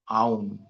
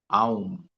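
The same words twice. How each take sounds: First: An 'ah' sound glides into 'oo' before the m. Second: The same.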